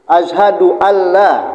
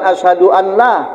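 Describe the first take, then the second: First: The n merges into a doubled l. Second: An n sound is heard before la. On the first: The speaker calls it right. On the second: The speaker calls it wrong. "bukan asyhadu an la"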